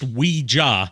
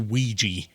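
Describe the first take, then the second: First: The word is said like 'oui' plus 'ja'. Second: The word is said in the common English way. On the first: It blends French and German words for yes. "is pronounced Ouija because it's supposed to be an amalgamation of the French word "oui" and the German word "ja."" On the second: It is the everyday altered form. "the English language has mutated it into Ouija for a common pronunciation"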